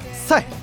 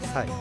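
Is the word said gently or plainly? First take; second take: plainly; gently. First: The word is said in a plain, neutral way. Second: The word is said in a soft, gentle way.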